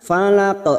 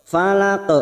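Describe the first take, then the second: Both takes have the same delivery.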